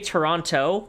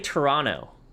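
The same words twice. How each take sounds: First: The second T is hard and crisp. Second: The second T is soft and flapped. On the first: This marks the speaker as a tourist. The speaker calls it wrong. "with like a hard T" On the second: This is how locals say it. The speaker calls it right. "like with a soft T"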